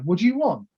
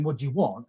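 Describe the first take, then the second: First: "you" lifted higher and leaned on; mock eager asking, "you" stressed. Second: Said in the usual way. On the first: To the boss, eager "you" stressed. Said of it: "now he's coming to me going". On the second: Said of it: "I used to go to him saying".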